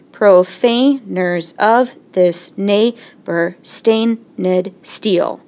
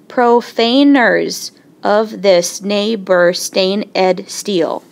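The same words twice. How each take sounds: First: Slow reading with "stained" as one long beat; scanned slowly. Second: Slow reading splitting "stain ed" into two beats; scanned slowly. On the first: Teacher fixing the scansion for the class, slow and even. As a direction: stretch "stained" into a single held syllable, unhurried. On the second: Teacher testing a line by sounding "stain ed", slow. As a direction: drag the line out and sound the extra "ed" syllable. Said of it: "Starting with an unstressed". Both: Shown as a demonstration.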